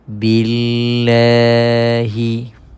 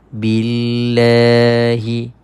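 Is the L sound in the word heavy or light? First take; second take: light; light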